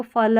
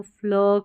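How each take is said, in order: First: 'फल' with a full vowel after f; unblended mispronunciation. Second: 'फ्ल' with a half f straight into l; blended pronunciation. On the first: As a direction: keep f and l apart in 'फल'. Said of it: "इसको फल नहीं पढ़ना". ('फल' में पूरा फ बोलें) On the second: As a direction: glide f into l, 'फ्ल'. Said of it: "आधा फ पढ़ेंगे". ('फ्ल' में आधा फ, पूरा ल बोलें) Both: Shown as a demonstration.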